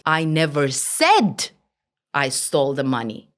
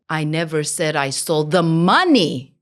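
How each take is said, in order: First: The stress falls on the word said. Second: The stress falls on the word money. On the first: It was implied rather than said. "Maybe I implied different meaning" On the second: Something other than money was stolen. "Maybe I stole something else"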